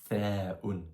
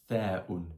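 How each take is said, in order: The two takes are said the same way.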